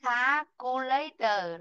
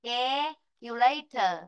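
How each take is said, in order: First: "calculator" starting with a plain "kha" vowel; slow wrong-example "calculator" with "ah" in the first syllable; wrong pronunciation. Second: "calculator" starting with "ke", the æ vowel; slow model "calculator" with a spread-mouth first vowel; correct pronunciation. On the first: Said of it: "Not calculator". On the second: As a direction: say "calculator" as "kæ-culator", drawn out. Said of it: "Nó đọc là ke". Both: Shown as a demonstration.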